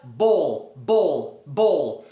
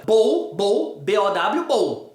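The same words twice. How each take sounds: First: "bowl" slow, low and falling, closed on a real L; pronounced L. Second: "bowl" as "bôu", spelled B O W, no L; Portuguese-like ending. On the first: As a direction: end "bowl" on the L, tongue held up. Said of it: "como tem o L". (bowl com L final pronunciado) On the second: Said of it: "O primeiro pronuncia igual ao português". (bowl como "bôu", igual ao português) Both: Shown as a demonstration.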